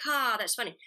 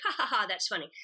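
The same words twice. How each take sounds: First: One tired ha, the joke already wearing off; less amused. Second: Mock reading laugh, still fresh; amused read. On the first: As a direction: say it like you've heard it before. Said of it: "then you do it at the table reading". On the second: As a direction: read it as if it is funny the first time. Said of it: "first you read it in the script". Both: Shown as a demonstration.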